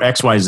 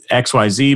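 First: The last letter is pronounced the Canadian way, zed. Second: The last letter is pronounced the American way, zee.

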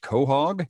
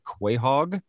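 First: It starts with a 'ko' sound. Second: It is read as spelled, starting with 'kwa'. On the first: The speaker calls it right. "but it's pronounced quahog" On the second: The speaker calls it wrong. "it looks like quahog"

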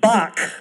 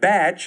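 First: The name sounds like 'bock', ending in 'k'. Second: The name rhymes with 'catch', ending in 'tch'. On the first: This is the widely known way of saying the name. "Or as known" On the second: This is the local way of saying the name. "that's how they pronounce it in Kentucky"

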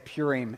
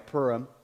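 First: The start sounds like the brand name Purina. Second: The start does not sound like Purina. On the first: The speaker calls it wrong. "in my head like it's like half a dog food" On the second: The speaker calls it right. "I'm going to say it the right way"

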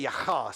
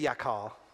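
First: It has a harsh guttural throat sound. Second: It has a plain American k sound.

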